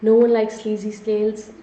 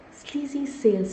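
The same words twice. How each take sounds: First: Said in the usual way. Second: "Sleazy sales" repeated with a touch of distaste, softer. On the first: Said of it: "I can't even say that word". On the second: Real, not acted. Webinar host recoiling from the phrase for viewers, slight distaste. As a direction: let the words taste bad as you repeat them. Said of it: "See, I can't even say that word".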